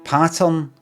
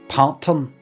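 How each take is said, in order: First: The first syllable sounds like 'pat'. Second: The first syllable sounds like 'part'. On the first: "So I said pattern" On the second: "I never say partern"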